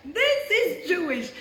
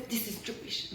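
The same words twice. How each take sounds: First: Slow, high, emphatic declaration; certain. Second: Said in the usual way. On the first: Retold or imitated. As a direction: imitate mom's absolute conviction, drawn out and raised. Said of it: "like, certain, like, when she knows". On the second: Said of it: "And my mom says".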